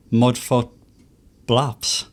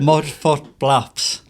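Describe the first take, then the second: First: Hesitant go at a tricky name, gap before BLAPS; halting attempt. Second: MUDFOOT BLAPS drawn out slowly in one go; slow, deliberate MUDFOOT BLAPS without a long break; careful enunciation. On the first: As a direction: pause between MUDFOOT and BLAPS. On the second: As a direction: slowly work through a hard-to-say name. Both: Real, not acted. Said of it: "them words so hard to say".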